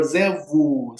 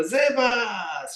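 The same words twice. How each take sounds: First: Servu said with no s at the end; Servu, final s dropped. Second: Servus with the final s said out, a bit higher; Servus, ending s kept and clear; Servus, full s. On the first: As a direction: drop the s: Servu. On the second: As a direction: give Servus its full closing s. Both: Shown as a demonstration. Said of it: "some people are".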